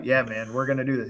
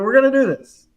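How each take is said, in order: First: Said in the usual way. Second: High, loud doubting echo; incredulous cousin. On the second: Retold or imitated. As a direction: imitate a cousin in disbelief, pitched up. Doubting cousin questioning the job.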